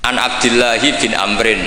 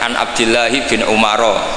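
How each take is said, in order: First: The last name is pronounced Amrin. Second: The last name is pronounced Umaro. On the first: The speaker calls it right. "Amrin ada wawunya, berarti bener" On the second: The speaker calls it wrong. "itu gurunya langsung tahu"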